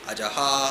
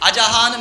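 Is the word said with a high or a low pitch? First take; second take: low; high. First: The word is said without a raised pitch. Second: The word is said with a raised pitch.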